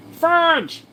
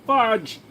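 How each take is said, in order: First: "Fudge" squealed much higher and louder, in a strained voice; pained squeal. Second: Higher pained yelp of the word "Fudge"; "Fudge" blurted in real pain, higher than usual; pained exclamation. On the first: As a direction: shriek "Fudge" as the pain bites. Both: Real, not acted. Pain from pulling ingrown hair.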